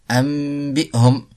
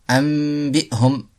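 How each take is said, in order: The two takes are said the same way.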